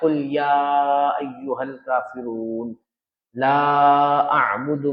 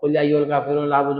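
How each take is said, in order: First: It is unhurried, with the long vowels held long. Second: It is rushed, with the long vowels cut short. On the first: The speaker calls it right. "इस तरीके से नमाज में तिलावत करना है" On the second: The speaker calls it wrong. "मदा चले गए, गुन्ना चले गया"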